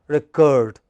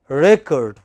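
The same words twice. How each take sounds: First: The stress is on the second syllable. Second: The stress is on the first syllable. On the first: It is used as a verb. "When it is verb, it is the second syllable which is stressed" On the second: It is used as a noun. "But when it is a noun, it is the first syllable which is stressed. As noun"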